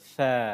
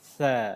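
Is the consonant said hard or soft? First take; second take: soft; soft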